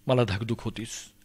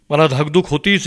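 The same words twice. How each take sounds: First: Low-key, soft worry; subdued anxious murmur; hushed dread. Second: Rising anxiety, spoken out; mounting dread. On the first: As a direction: say it softly, as if to oneself. Dread voiced low, then repeated stronger. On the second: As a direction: worry coming out fuller. Same dread repeated, building. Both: Acted.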